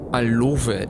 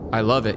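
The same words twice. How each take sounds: First: It is said warmly, with strong enthusiasm. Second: It is said flatly, with little enthusiasm. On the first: The listener believes the love is real. The speaker calls it right. "that mother effer loves that. I can just tell" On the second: The listener doubts the love is real. The speaker calls it wrong. "You say you love it, but do you?"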